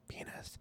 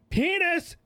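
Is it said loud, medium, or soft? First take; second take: soft; loud. First: It is said very softly. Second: It is said loudest of all.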